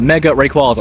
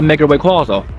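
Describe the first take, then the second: First: The name comes out smooth and natural. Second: The name comes out awkward and oddly pronounced. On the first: The speaker calls it right. "That sounds better" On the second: The speaker calls it wrong. "That sounded really weird how I said that"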